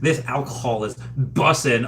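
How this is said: It sounds stiff, awkward and old-fashioned. An older person is trying to sound cool. The speaker calls it wrong. "that old person way"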